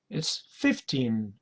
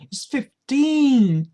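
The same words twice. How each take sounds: First: The stress is not on the second syllable. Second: The stress is on the second syllable. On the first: It is just counting with no confusion. "you don't have to stress on teen" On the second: It corrects a confusion with fifty. "you stress on the second syllable"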